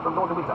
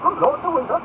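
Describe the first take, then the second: First: Lightly voiced servant's announcement, pitched up; valet announcing. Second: High, loud questioning repeat; ringing, much higher question; surprised echo. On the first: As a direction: announce the visitor in a raised tone. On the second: Acted. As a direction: echo the name in a lordly high voice. Duke repeats name as question.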